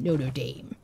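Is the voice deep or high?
deep. It is said in a deepened voice.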